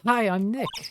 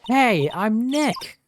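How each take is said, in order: First: It is said quietly. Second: It is said loudly.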